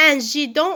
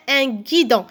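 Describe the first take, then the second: First: "gidon" said with a French j sound, "jidon"; wrong soft G. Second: "guidon" said with hard g as in grotte; correct hard G. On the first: Teacher offering pupils a choice, soft G as in "jidon". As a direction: say "gidon" starting like "girafe". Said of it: "Qu'est-ce qu'on dit?". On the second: Teacher offering pupils the right word, hard G. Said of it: "Un guidon, alors avec gu". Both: Shown as a demonstration.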